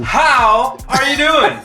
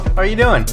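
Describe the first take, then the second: First: It is said warmly, with enthusiasm. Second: It is said flatly, without enthusiasm.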